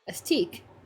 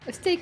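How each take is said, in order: First: The vowel sounds like 'ee'. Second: The vowel sounds like 'ay'. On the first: The speaker calls it wrong. "it's an E A, so it should be E, you know, like T" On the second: The speaker calls it right. "No, it's a steak"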